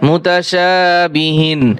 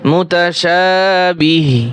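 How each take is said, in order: First: The word ends with a final 'in' sound. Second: The word ends on a bare 'h' sound. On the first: "হা দুই জের হিন" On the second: "এগুলা অক্ষ করলে কিছুই উচ্চারণ হয় না"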